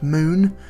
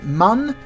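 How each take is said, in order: First: The vowel is a long oo, like moon. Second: The vowel is a short u, like bun. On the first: The speaker calls it right. "it's actually pronounced moon" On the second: The speaker calls it wrong. "all those people pronounce calling it mun, you're wrong"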